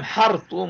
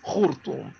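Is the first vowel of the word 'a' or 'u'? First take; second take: a; u. First: The first vowel is an open 'a' sound. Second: The first vowel is a rounded 'u' sound. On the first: This is the original Syriac form. The speaker calls it right. "يعني بالفتحة وليس بالضم" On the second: This is not the original Syriac form. The speaker calls it wrong. "وليس بالضم"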